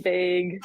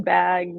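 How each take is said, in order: First: "big" said as Minnesotans say bag, with a raised vowel. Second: Said in the usual way. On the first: Shown as a demonstration. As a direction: say "big" for bag, vowel lifted toward "beg". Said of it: "saying bag, like, big". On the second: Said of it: "saying bag".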